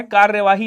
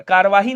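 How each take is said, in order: First: कार्यवाही with kaar-ya before vaahi; correct form. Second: कार्यवाही said as kaar-vaahi, y dropped; wrong form. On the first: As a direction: sound the middle syllable in कार्यवाही, kaar-ya-vaahi. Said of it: "कार्यवाही होता है". (कार्यवाही, बीच का 'र्य' बोलकर) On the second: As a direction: drop the ya sound in कार्यवाही. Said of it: "नहीं होता है". (कार्यवाही को 'य' के बिना, कारवाही बोलें) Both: Shown as a demonstration.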